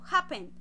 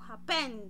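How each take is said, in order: First: The stress is on the first syllable. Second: The stress is on the second syllable. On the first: The speaker calls it right. "Estoy haciendo la fuerza de la entonación en la primera sílaba" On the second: The speaker calls it wrong. "yo no digo happen"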